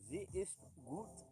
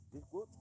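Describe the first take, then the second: First: "Sie ist gut" stretched slowly with a rise on "ist"; slowly savouring "Sie ist gut"; slow, drawn-out German. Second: Said in the usual way. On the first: Shown as a demonstration. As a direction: linger on each word of "Sie ist gut". Repeating German phrase slowly.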